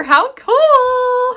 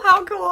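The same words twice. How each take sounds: First: Excited, louder and higher. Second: Said in the usual way. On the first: Real, not acted. Admiring the gift.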